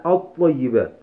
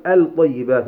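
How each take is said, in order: First: الطيبات with the lam silent and a doubled ط, at-tayyibat; lam assimilated. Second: الطيبات with the lam clearly pronounced, al-tayyibat; wrong lam sounded. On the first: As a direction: say الطيبات gliding from the hamza straight into a stressed ط. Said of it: "ولكن قلنا الطيبات". (إدغام اللام في الطاء: الطيبات) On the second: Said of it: "لم نقل الطيبات". (نطق اللام ظاهرة في الطيبات خطأً) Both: Shown as a demonstration.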